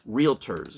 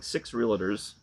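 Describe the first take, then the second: First: No extra vowel sound is added in the middle. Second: An extra vowel sound is added in the middle. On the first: The speaker calls it right. "do not say, put the extra sound" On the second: The speaker calls it wrong. "No, I said it again"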